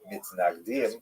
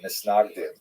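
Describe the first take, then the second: First: The second consonant is a t sound. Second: The second consonant is an s sound.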